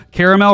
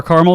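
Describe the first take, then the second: First: "caramel" in its fuller three-syllable form, CARE-uh-mel; caramel pronunciation variant. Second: "caramel" shortened to two syllables, CAR-mul; alternate caramel pronunciation. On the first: Host listing Frosty flavors, "caramel" said as CARE-uh-mel. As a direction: say "caramel" with the middle vowel kept. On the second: Host offering the other way to say it, "caramel" as CAR-mul. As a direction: say "caramel" as CAR-mul, dropping the middle vowel. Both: Shown as a demonstration. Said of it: "depending on how you say it".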